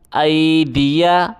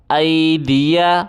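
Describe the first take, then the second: No difference in how they are said.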